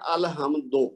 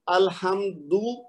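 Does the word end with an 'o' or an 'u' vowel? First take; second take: o; u. First: The word ends with an 'o' vowel. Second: The word ends with a short 'u' vowel. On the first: The speaker calls it wrong. "बहुत से लोग क्या कहते हैं?" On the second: The speaker calls it right. "सही है"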